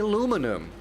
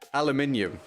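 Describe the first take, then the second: First: It is said in an imitated American accent. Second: It is said in a British accent. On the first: "I'm nailing the American accent now" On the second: "It's aluminium"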